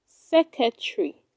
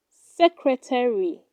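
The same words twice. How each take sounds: First: Secretary said sek-uh-tree, dropping the first r; secretary squeezed into three syllables, sek-uh-tree; wrong pronunciation. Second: Secretary said sek-ruh-tair-ee, all four syllables; secretary with the r kept, sek-ruh-tair-ee; correct pronunciation. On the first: Teacher showing learners the wrong way: secretary as sek-uh-tree. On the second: Teacher giving learners the right way: secretary as sek-ruh-tair-ee. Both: Shown as a demonstration. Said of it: "It is pronounced secretary".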